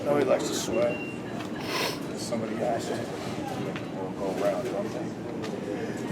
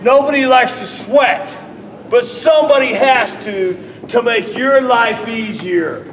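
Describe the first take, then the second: First: Low, soft, held back; low quiet take of the line. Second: Higher, louder and slowed; loud raised take of the line; loud and rising. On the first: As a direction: let it sink low and quiet. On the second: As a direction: push it up and out. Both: Shown as a demonstration. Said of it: "Put inflection in your voice".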